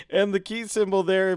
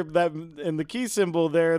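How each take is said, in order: First: Said in the usual way. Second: "key" slightly leaned on, the rest even; stress on key. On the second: Shown as a demonstration. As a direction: lean lightly into "key".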